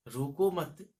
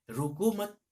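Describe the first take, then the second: First: रोको मत repeated, louder but less high; firm recital. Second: High, loud call of रोको मत; poet's rallying cry; ringing cry. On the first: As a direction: echo रोको मत firmly. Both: Shown as a demonstration. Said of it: "कवि कहते हैं कि".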